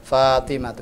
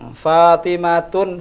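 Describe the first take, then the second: First: The name ends on a vowel, no n. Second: The name ends with an added n sound. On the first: The speaker calls it right. "Yang benar adalah Fatimatu" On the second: The speaker calls it wrong.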